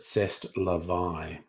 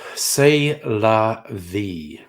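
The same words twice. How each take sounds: First: It is said with a French accent. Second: It is said with an English accent.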